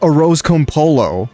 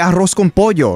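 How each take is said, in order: First: It is said with an English accent. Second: It is said with a Spanish accent. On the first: The speaker calls it wrong. "I'm not gonna say" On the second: The speaker calls it right. "I'm gonna say"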